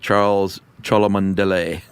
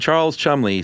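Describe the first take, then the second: First: The surname is said long, sounding every letter. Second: The surname is said short, as two syllables. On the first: This is how a video pronounced the name. The speaker calls it wrong. "they pronounced it" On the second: This is how the man himself said his name. The speaker calls it right. "he would say"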